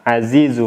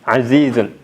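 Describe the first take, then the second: First: The word ends on a vowel without n. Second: The word ends with a final n sound. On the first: The ending is dropped to keep the verse's length. "di matan tidak disebutkan tanwinnya" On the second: This is the original full form of the word. "diucapkan dengan tanwin"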